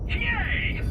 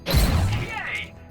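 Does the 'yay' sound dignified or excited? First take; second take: dignified; excited. First: It is said in a restrained, dignified manner. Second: It is shouted with wild, undignified excitement. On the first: The speaker calls it right. "I meant" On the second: The speaker calls it wrong. "that didn't sound dignified"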